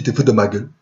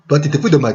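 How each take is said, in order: First: Said in the usual way. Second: Toi punched at the start, slightly raised; stress on Toi. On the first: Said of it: "Toi, tu te fous de ma gueule". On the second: Retold or imitated. To the receptionist, accusing with Toi stressed. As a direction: hit Toi hard, pointing at him.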